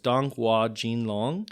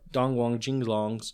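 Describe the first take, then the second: First: The second syllable sounds like 'hua'. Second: The second syllable sounds like 'wang'. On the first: "one last try" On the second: "I did not like the way I was pronouncing it"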